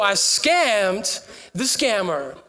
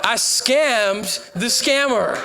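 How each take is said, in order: First: Slow emphatic. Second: Slow triumphant. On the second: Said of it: "and so I scammed the scammer". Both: Real, not acted.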